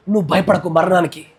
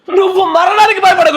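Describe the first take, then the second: First: Said in the usual way. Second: Jubilant cry. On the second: Acted. God's word quoted, shouted.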